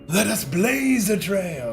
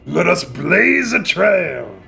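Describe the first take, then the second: First: It is said with less growl. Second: It is said in a growly voice.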